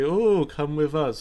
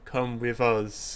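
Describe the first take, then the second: First: It sounds warm and friendly. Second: It sounds cold and threatening.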